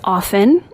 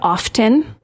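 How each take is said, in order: First: The T in the middle is silent. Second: The T in the middle is pronounced. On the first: The speaker calls it right. "The T is silent" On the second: The speaker calls it wrong. "apparently I said often"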